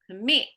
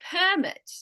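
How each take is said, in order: First: The stress is on the second syllable. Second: The stress is on the first syllable.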